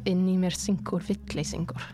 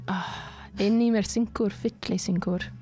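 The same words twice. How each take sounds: First: It is said in an ordinary, casual voice. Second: It is said in a put-on announcer voice.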